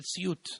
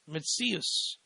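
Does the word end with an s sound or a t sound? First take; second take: t sound; s sound. First: The word ends with a t sound. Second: The word ends with an s sound.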